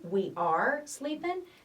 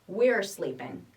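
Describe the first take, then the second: First: We and are are said as two full words. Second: We and are merge into one short syllable. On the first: "the long form" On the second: "The short form, the contraction"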